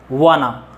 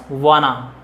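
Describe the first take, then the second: Both takes have the same delivery.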